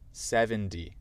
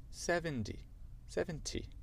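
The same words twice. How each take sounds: First: American seventy, like seven-dee; American demo, T of seventy softened; American accent. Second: High, soft British seventy; tentative British seventy, high and soft; British accent. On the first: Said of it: "avec mon accent américain et après". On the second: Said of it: "dire avec l'accent, l'accent britannique". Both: Shown as a demonstration.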